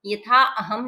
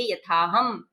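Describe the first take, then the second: First: यथा अहम with a full separate अ; the wrong way, यथा अहम with अ sounded; यथा अहम spoken as two full words; wrong reading. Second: यथा हम with no अ sounded; the right way, यथा हम, the अ left silent; यथा हम joined, अ dropped; correct reading. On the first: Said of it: "यथा अहम नहीं कहेंगे". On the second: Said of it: "इसको कहेंगे यथा हम". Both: Shown as a demonstration.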